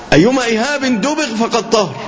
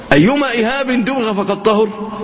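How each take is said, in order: Both takes have the same delivery.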